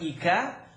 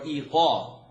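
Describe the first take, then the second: First: The consonant is a light front k sound. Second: The consonant is a deep back q sound. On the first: The speaker calls it wrong. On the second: The speaker calls it right.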